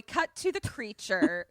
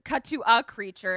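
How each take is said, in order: First: Said in the usual way. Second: "a" stressed and set apart. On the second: Real, not acted. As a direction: correct yourself by punching the word "a". Corrects "the" to "a.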